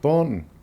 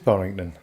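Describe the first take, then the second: First: The name is shortened to two syllables. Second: The name is said in full, three syllables.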